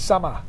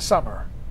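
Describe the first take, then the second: First: The word ends with an 'ah' sound. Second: The word ends with an 'er' sound. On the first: The speaker calls it right. "There's an A" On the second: The speaker calls it wrong. "it's not summer"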